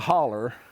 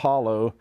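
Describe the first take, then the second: First: The word ends with an er sound. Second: The word ends with an oh sound. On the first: The speaker calls it right. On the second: The speaker calls it wrong.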